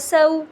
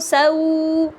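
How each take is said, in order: First: The vowel sound is kept short. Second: The vowel sound is stretched out long. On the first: The speaker calls it right. "बल्कि हम क्या करेंगे" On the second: The speaker calls it wrong. "हम इसको सऊ ऐसे नहीं खींचेंगे"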